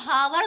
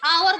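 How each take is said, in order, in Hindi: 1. इस शब्द की शुरुआत h ध्वनि से होती है। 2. इस शब्द की शुरुआत स्वर ध्वनि से होती है। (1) "हम इसको हावर तो नहीं कहते ना" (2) "आवर बोलते हैं। ... The letter एच is silent"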